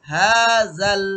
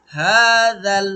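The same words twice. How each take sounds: The two takes are said the same way.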